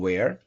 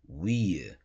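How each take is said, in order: First: It sounds like the word 'where'. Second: It sounds like the word 'we'. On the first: "Ele pode pronunciar essa palavra como where, que parece até como se fosse onde" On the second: "mas pode pronunciar we"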